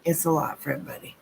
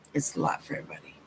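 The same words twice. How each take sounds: First: Said in the usual way. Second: Breathy whispered repeat, fast; whispered aside to the viewer. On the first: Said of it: "repeated softer". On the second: Shown as a demonstration. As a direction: drop it to a hushed whisper. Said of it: "repeated after plain take".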